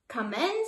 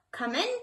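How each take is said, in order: First: A mild wolf snarl held softly. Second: Lightly voiced granny calling come in; a hint of a sweet old granny inviting; grandmother calling. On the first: Wolf pretending to be grandmother, understated soft snarl. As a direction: hide the growl behind a soft invitation. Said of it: "snarled the wolf as softly as he could". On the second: Grandmother calls to the knocking wolf, lightly voiced granny. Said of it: "called grandmother". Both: A narrator's reading.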